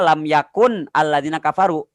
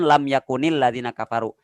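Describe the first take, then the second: First: Yakun ends on n, with no added vowel. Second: Yakun takes an added i, linking into ladina. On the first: This is the original form of the words. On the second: The words are joined in continuous reading.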